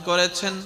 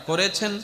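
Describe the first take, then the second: No difference in how they are said.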